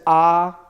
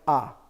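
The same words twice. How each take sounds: First: The vowel is long and drawn out. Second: The vowel is short and cut off. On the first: "whereas we would pronounce this as ah" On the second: "because it has the schwa, it's like ah"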